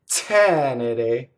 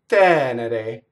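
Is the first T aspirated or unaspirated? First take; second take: aspirated; unaspirated. First: The first T has a strong puff of air. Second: The first T has little air, close to D. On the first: The speaker calls it wrong. "that first T is not right. It has too much air" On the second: The speaker calls it right. "It's like saying with a D"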